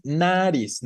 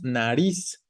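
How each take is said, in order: First: Nariz stressed on the first syllable, NA-riz, said slowly; wrong stress. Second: Nariz stressed on the last syllable, na-RIZ, said slowly. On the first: Teacher showing students the wrong stress, slow NA-riz. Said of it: "no decimos nariz". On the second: Teacher showing students the right stress, slow na-RIZ. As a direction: land the weight on the end of nariz, na-RIZ. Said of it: "La fuerza está en la última". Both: Shown as a demonstration.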